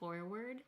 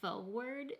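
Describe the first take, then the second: First: The first R sound is clearly pronounced. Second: The first R sound is left out.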